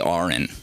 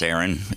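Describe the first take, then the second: First: The first vowel sounds like 'ah'. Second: The first vowel sounds like 'air'. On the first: This is how the other spelling should be said. "A A R O N should be Aaron. Am I right? Like aardvark" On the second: This is how the speaker's own name is said. "It's A E R O N, so it's like aeronautics"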